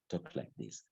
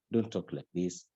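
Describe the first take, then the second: First: 1 soft demo. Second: Said in the usual way. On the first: Shown as a demonstration.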